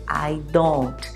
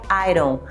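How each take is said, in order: First: The two words are said separately, not linked. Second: The two words are joined smoothly into one unit. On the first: "a gente tem o hábito de ler I don't" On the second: "quando você vai juntar o I com o don't, ele fica I don't"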